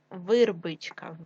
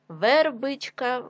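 First: Вирбичка with и instead of е; wrong variant вирбичка, first vowel и; и in first syllable. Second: Said in the usual way. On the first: Shown as a demonstration. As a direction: say вирбичка with short i after В. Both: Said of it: "від слова верба".

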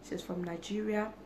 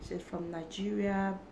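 The two takes are said the same way.

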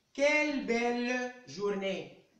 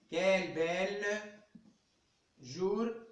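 First: Slow, drawn-out exclamation with a falling tune on "quelle belle journée". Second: Said in the usual way. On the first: Shown as a demonstration. Teacher showing online pupils an exclamative sentence, slow and delighted. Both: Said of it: "phrase exclamative qui exprime un sentiment".

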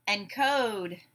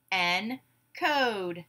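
First: Said in the usual way. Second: "Encode" slowly split in two; syllable by syllable. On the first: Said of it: "I will give you a word". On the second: Shown as a demonstration. Class breaks the word apart together, syllable by syllable. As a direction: say "Encode" as en, pause, code. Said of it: "break it apart into syllables".

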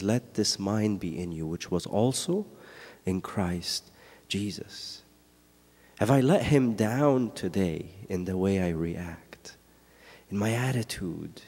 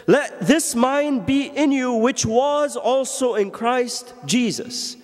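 First: Softer, low, reflective reading sinking to a whisper; hushed verse. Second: High, slow, ringing proclamation of the verse; proclaimed verse. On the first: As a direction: say it quietly, as if to yourself. Verse repeated hushed, then whispered. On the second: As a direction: declare it to the whole church. Verse proclaimed, then repeated hushed. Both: Acted.

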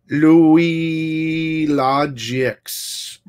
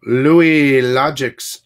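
First: Sung, slow sing-song call, a bit higher; thanking the viewer again, crooned slowly; crooned name. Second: Slow, loud hype call of the name; calling out a generous viewer, drawn-out and loud; drawn-out shout-out. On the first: Repeating supporter's name, sing-song. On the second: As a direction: stretch the name out like an announcer. Hyping a supporter's name on stream. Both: Real, not acted.

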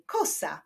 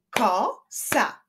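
First: Said in the usual way. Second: "Kosa" broken into ko, sa; two separate beats on "Kosa", pause between; syllable by syllable. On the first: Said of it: "wyklaszczmy sylaby w wyrazie". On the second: Shown as a demonstration. Teacher showing syllables to pupils, "Kosa" split in two. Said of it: "wyklaszczmy sylaby w wyrazie kosa".

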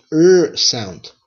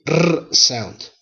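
First: R as a soft untrilled "er" in "R sound". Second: R rolled as a trilled "rrr" in "R sound"; hard R. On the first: Teacher contrasting Spanish R sounds, soft R. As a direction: keep the R soft, without a roll. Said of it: "or a soft R sound". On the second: Teacher contrasting Spanish R sounds, hard trilled R. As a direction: roll the R hard. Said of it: "R can make a hard R sound". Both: Shown as a demonstration.

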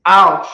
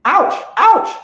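First: Single loud, sharp barked ouch; one bark of an ouch; firm ouch. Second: Very high squealed repeated ouch; frantic ouch ouch. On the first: Trainer showing owners the right way: one loud barked ouch. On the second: Trainer showing owners the wrong panicky way to say ouch. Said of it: "instead of just saying". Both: Shown as a demonstration.

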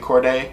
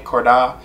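First: Cordae ending in "day"; pronunciation guess. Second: Cordae ending in "dah"; alternative pronunciation guess. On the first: Reactor unsure of the rapper's name, [name] as "kor-day". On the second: Reactor trying another reading, [name] as "kor-dah". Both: Shown as a demonstration. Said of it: "How you pronounce that name?".

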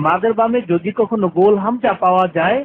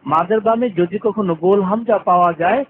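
The two takes are said the same way.

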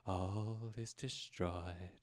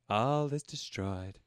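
First: Slower, much softer posh English despair; deeper despair. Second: Slow, hammed-up posh English despair; dramatic despair. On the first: Acted. Posh English lady reading her doom again, slower and fading. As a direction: let the posh English doom fade to a near-murmur. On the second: Posh English lady reading her doom slowly. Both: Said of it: "she got nihilistic as fuck".

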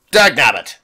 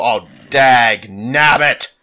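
First: Louder snapped mock cartoon cry of dag nabbit; quick hammed-up old prospector curse; cartoon old-timer. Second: Slow drawn-out mock cartoon cry of dag nabbit; hammed-up old prospector, stretched out; cartoon old-timer. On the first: Gamer repeating his curse, in a short cartoon old-timer voice. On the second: Gamer cursing a setback, in a slow cartoon old-timer voice. Cartoon exclamation while gaming.

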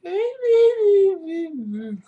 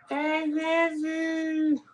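First: Very slow, high, crying husky howl; drawn-out whimpering dog voice; Mishka howling. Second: High, slow dog voice, dropping softer; Mishka softer. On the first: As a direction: draw the words into a long whining howl. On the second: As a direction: let the husky howl fade down. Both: Retold or imitated. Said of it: "So that's my impression of, uh, Mishka".

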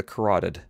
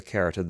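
First: "carotid" stressed on the second syllable, kuh-ROT-id; corrected pronunciation. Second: "carotid" stressed on the first syllable, CARE-uh-tid; misread pronunciation. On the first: Narrator retakes medical term, "carotid" said kuh-ROT-id. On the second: Narrator misreads medical term, "carotid" said CARE-uh-tid. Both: Shown as a demonstration.

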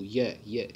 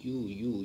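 First: ये said with a clear y glide, as "yeh"; ये, the correct consonant y onset; ये, leaning on the y glide; y sound start. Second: यू said as a pure vowel "oo" with no y glide; यू, the mistaken plain-vowel start "oo"; यू without the y sound; wrong vowel start. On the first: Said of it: "letter ये से". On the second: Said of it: "आप बोल के देखो तो इसकी शुरुआत हो रही है". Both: Shown as a demonstration.

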